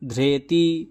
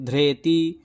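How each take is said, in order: The two takes are said the same way.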